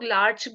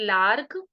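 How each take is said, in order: First: The word ends with a 'ch' sound. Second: The word ends with a 'k' sound. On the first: Other people say it this way. "इसे लोग लार्च भी बोलते हैं" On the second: The speaker personally says it this way. "But I pronounce it लार्क"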